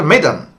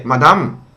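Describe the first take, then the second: First: "madam" said as MED-um with a flat first vowel; "madam" with a short e-like first vowel and weak second; corrected pronunciation. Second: "Madam" said as MAH-dahm with open a sounds; "Madam" with both vowels as ah; local pronunciation. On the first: Shown as a demonstration. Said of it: "I tried to correct them". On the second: Retold or imitated. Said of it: "no, not".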